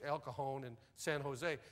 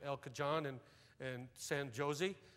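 First: The j is said as an H sound. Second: The j is said as a J sound. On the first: The speaker calls it right. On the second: The speaker calls it wrong.

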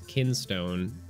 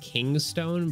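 First: The word is said with 'kin' at the start. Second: The word is said with 'king' at the start. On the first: The speaker calls it right. "but it's kinstone" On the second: The speaker calls it wrong. "I keep wanting to say like kingstone"

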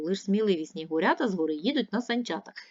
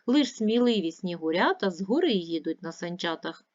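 First: The sentence is read at a fast pace. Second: The sentence is read at a moderate pace. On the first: "Тепер швидше" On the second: "Давайте разом читати"

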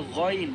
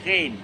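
First: The gh sound is heavy and thick. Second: The gh sound is light and thin. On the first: The speaker calls it right. "Kita kena baca ghain dengan tebal" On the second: The speaker calls it wrong. "bukan ghain"

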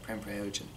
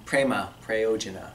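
First: The final vowels of both words are dropped. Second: The final vowels of both words are pronounced. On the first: "It's a very common thing to say" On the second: "in the Sanskrit accent"

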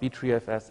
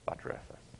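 First: The first part does not sound like butter. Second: The first part sounds like butter. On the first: The speaker calls it wrong. "not btrfs" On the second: The speaker calls it right. "it's btrfs. ... because butter comes from the cow"

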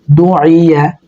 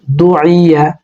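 The two takes are said the same way.

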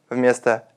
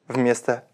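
The two takes are said the same way.

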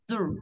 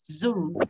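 First: The word is said quickly and clipped. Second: The word is said slowly and drawn out. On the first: "Còn cô đọc nhanh nó chỉ là du" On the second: "bạn chưa quen thì bạn đọc chậm hơn"

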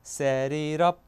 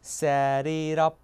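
No difference in how they are said.

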